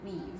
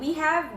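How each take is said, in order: First: The words are merged into one syllable. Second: Both words are said in full. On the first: "we say we've" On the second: "Instead of saying we have"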